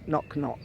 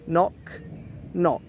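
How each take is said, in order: First: The first word's end links into the second. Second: The two words are said separately, not linked. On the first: "But together" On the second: "in reality you're saying knock, knock"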